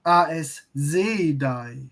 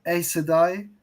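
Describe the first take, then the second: First: "A S Sedai" stretched out slowly, German-style; German pronunciation. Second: Said in the usual way. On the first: Shown as a demonstration. Viewer showing how the German dub says it, German pronunciation of "A S Sedai". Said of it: "the German pronunciation of names". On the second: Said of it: "instead of".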